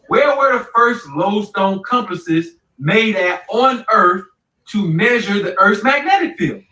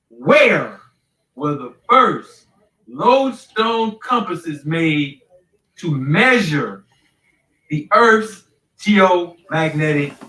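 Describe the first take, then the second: First: The question is asked at normal speed. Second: The question is asked very slowly.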